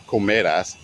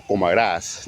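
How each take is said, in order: First: "comerás" wrongly stressed on ME; stress on middle syllable. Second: "comerás" stressed on the last syllable, rás; stress on final A. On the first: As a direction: punch the me in "comerás", drop the ending. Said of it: "not comerás". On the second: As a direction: stretch and press the rás of "comerás". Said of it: "put the emphasis on the". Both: Shown as a demonstration.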